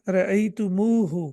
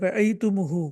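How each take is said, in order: First: The vowel after the m is long. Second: The vowel after the m is short. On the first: The speaker calls it right. "मीम के बाद एक वाव का इज़ाफ़ा कर दिया जाएगा" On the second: The speaker calls it wrong. "पढ़ने में अ, आपको मुश्किल हो रही है"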